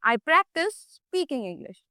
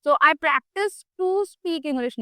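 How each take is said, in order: First: Slow, careful correction; correct form. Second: Said in the usual way. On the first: Shown as a demonstration. Teacher correcting a student's verb form, slow and careful. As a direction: spell out the right version slowly. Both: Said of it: "नहीं".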